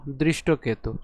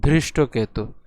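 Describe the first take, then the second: First: দৃষ্টকেতু with a plain, breathless দ; unaspirated d. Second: ধৃষ্টকেতু with a breathy, aspirated ধ. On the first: Teacher showing what দ would give, plain d in দৃষ্টকেতু. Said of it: "যদি দ থাকতো তাহলে এর উচ্চারণ হতো". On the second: Teacher correcting for ধ, aspirated dh in ধৃষ্টকেতু. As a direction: start ধৃষ্টকেতু on dh with a puff of air. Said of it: "যেহেতু ধ রয়েছে সেজন্য এর উচ্চারণ হবে". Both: Shown as a demonstration.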